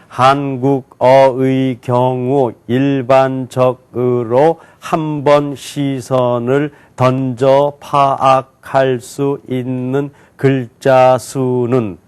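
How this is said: Each syllable is read separately and slowly. "한자 한자씩 또박또박 읽겠습니다"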